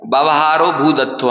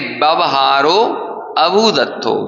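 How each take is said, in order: First: The initial 'a' vowel is dropped and silent. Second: The initial 'a' vowel is pronounced aloud. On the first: It sounds as if the conduct is called real. "हम ऐसे बोलते हैं भूदत्थो" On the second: The conduct is called not real. "क्या कहेंगे?"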